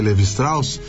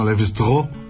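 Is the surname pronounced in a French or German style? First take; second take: German; French. First: The surname is pronounced the German way. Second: The surname is pronounced the French way. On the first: "eu gosto de dizer Lévi-Strauss" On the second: "não vejo nenhum problema que as pessoas digam Lévi-Strauss, já que ele era francês"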